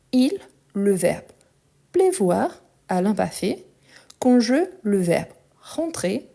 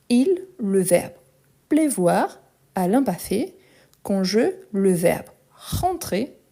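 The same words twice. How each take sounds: The two takes are said the same way.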